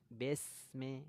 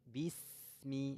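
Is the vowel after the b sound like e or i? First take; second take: e; i. First: The vowel after b is a slanted e. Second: The vowel after b is a full, clear i. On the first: The speaker calls it wrong. "Jangan miring, jangan besme" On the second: The speaker calls it right. "rahangnya turun, vokalnya i sempurna"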